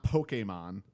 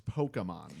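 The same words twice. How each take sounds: First: "Pokemon" with a long A in the middle; the disputed Pokemon, middle syllable "kay". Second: "Pokemon" with a weak schwa in the middle; Pokemon with "kuh". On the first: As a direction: say Pokemon as "POH-kay-mon". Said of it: "when people say, uh, Pokemon". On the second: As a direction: say Pokemon as "POH-kuh-mon". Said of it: "It's not Pokemon. It's Pokemon". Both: Shown as a demonstration.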